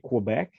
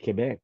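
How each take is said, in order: First: It is said with an English pronunciation. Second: It is said with a French pronunciation. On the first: This is how English speakers usually say it. The speaker calls it wrong. "normally people that speak English say Quebec" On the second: This is how the name is really said. The speaker calls it right. "but it's really Quebec"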